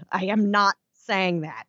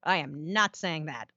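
First: Slow, deliberate, "not" hit hard; "I am not saying that" with "not" bold and slow; underlined emphasis. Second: Slow, quiet, NOT stressed; emphatic denial. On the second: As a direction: lean hard on "not" in "I am not saying that". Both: Shown as a demonstration. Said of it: "Underline bold".

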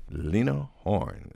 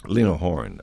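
First: Slow, stretched-out presenting of the name; drawn-out announcement. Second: Said in the usual way. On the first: Acted. Host announces the singer to the audience, slowly drawn out. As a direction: present her like a showman, taking time.

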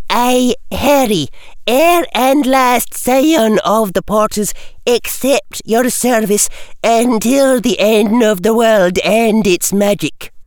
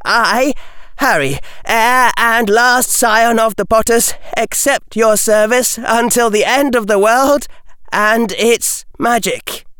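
First: Scottish teacher. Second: Put-on earnest, steady young voice; solemn boy's vow. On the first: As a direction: dictate like a stern schoolmistress. McGonagall dictating oath to Harry. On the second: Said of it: "Harry took a breath and said". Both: A narrator's reading.

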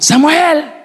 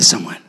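First: High shouted call of a name; a mother yelling for her lost son. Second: Gentle call. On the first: Mother searching the crowd, shouting her son's name high. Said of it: "Empezó a gritar". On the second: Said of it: "Y le vuelve a llamar y le dice". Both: Retold or imitated.

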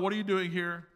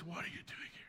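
First: Said in the usual way. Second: Very soft whispered question; hushed and barely audible; gentle whisper. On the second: A narrator's reading. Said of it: "there was a gentle whisper".

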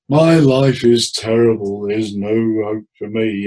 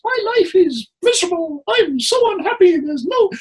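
First: Slow, mournful demo of a gloomy client; downbeat mournful. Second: Much higher, louder squeaky cartoon voice; cartoon character voice. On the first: Therapist demoing a depressed client, slow mournful. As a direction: drag it out heavily, slow. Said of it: "in a downbeat, mournful tone". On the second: Therapist shows client a cartoon voice, very high. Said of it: "in a cartoon character's voice". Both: Shown as a demonstration.

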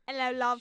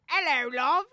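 First: British impression. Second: A quick cheeky British "Hello, love", a touch louder; mock British accent. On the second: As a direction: greet her lightly in a put-on British accent. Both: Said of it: "our British impression".

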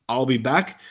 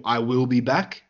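First: Said in the usual way. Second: "I will be back" with WILL as its own full word; uncontracted catchphrase. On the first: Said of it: "iconic catchphrase". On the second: Shown as a demonstration. Host quotes Schwarzenegger's preferred catchphrase, "I will be back" uncontracted. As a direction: say "I will be back" without contracting "I will". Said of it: "trying to get it changed to".

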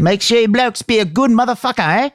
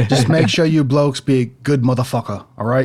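First: Very high, hammed-up Aussie; Australian accent. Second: Lightly attempted Aussie accent; Australian accent. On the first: Echoing the co-host in a high, exaggerated Australian accent. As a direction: echo it in a high cartoon Australian voice. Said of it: "it's hard to keep the accent". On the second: Co-host joins in with a rough Australian accent. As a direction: have a go at Australian, in your own pitch. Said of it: "do you have an Australian accent".

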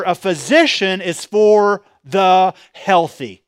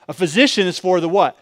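First: Slow, drawn-out trick line; deliberate misquote. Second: Said in the usual way. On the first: Shown as a demonstration. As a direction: pastor slips in a wrong ending to test the crowd, slowly. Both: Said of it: "No, no, no".

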